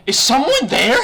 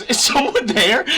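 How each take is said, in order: First: Mock high startled mom, loud with laughter; mom's startled question. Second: Slow, high question broken by laughter; laughing mom. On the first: Friend's mom hears a stranger in the call, mock startled. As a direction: squeak it out like a surprised mother. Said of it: "She's like". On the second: Retold or imitated. Mom realizes someone heard her fart, laughing question. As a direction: ask it again while cracking up. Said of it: "but she, like, laughs".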